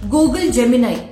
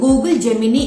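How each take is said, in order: First: The last syllable ends with an 'eye' sound. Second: The last syllable ends with an 'ee' sound.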